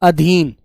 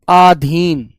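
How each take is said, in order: First: The first vowel is short. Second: The first vowel is long. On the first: The speaker calls it right. "जो इसका सही रूप होता है" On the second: The speaker calls it wrong. "शब्द आधीन नहीं होता, यहां आ नहीं आता"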